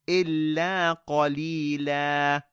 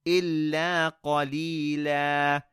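Both takes have the same delivery.

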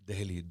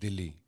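First: It is said as Dehli, with an e vowel. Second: It is said as Dilli, with an i vowel. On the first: This is the original form of the name. "D-E-H-L-I. This is the real pronunciation" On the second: This is a popular shortened form of the name. "some people even call it Delhi, D-I-L-L-I"

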